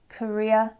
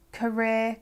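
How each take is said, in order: First: "career" as "kuh-ree-uh"; other pronunciation. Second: "Career" ending in one long vowel; no glide at the end of "Career"; speaker's own accent. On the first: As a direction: end "career" on a two-part glide. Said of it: "can also sound like". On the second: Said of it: "can also sound like career". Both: Shown as a demonstration.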